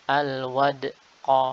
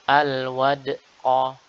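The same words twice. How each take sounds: First: The d is followed by a glottal catch. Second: The same.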